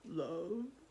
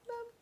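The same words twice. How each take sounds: First: It is said in a deep, gruff troll voice. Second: It is said in a tiny, squeaky mouse voice.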